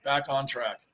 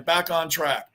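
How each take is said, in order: First: A soft, low afterthought echo; muttered echo. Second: Said in the usual way. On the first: Real, not acted. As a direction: lower and softer, said to himself. Echoes himself, dropping away.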